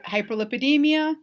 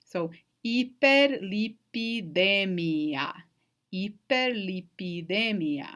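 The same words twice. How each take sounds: First: Hyperlipidemia in plain English, HIGH-per-lip-ih-DEE-mee-uh; English hyperlipidemia with reduced vowels and an h; English pronunciation. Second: Hyperlipidemia said slowly the Spanish way, ee-per-lee-pee-DEH-mee-ah, every vowel pure and no h; drawn out, each vowel saying its name: ee-per-lee-pee-de-MEE-a; Spanish pronunciation. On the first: Teacher saying the English term before the Spanish, English pronunciation. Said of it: "in English, we mess with vowels".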